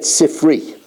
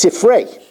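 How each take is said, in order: First: The word ends with an 'ee' vowel. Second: The word ends with an 'ay' vowel. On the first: The speaker calls it wrong. "That's the wrong pronunciation" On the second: The speaker calls it right. "it's Sifrei, and not Sifri"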